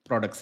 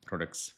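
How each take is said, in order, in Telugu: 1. ఈ పదాన్ని సాధారణ వేగంతో చెప్పారు. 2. ఈ పదాన్ని ఇంకా నెమ్మదిగా చెప్పారు.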